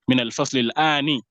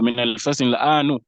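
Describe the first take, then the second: First: The last word ends with an i vowel. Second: The last word ends with a u vowel. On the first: "he will say maybe"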